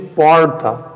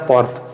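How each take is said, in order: First: Said in an American accent with a pulled R. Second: Said in a plain Brazilian accent. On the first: "Vem um americano e fala para ti porta. ... ele puxou o R" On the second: "o certo é pronunciar porta"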